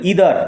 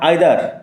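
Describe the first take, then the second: First: The first vowel sounds like 'ee'. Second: The first vowel sounds like 'eye'. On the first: The speaker calls it right. "উচ্চারণ লক্ষ্য করে, ইদার not আইদার" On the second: The speaker calls it wrong. "নট আইদার"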